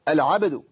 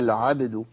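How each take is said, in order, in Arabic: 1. تُنطق الكلمة بجهد متكلف ومبالغ فيه. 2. تُنطق الكلمة بسهولة، من غير جهد متكلف. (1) "ولا اقول العبد" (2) "من غير ما اعمل اي تكلف خالص"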